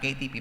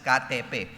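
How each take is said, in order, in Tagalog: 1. Parang Ingles ang tunog ng mga pangalan ng titik. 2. Parang Indonesian ang tunog ng mga pangalan ng titik. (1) "it's spelled as K T P sa ating K T P" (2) "they pronounce it as K T P"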